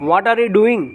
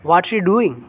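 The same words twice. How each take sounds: First: Said in the usual way. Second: "What are you" squeezed into "whatcha"-like syllables; native contraction. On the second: Shown as a demonstration. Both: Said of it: "They will speak".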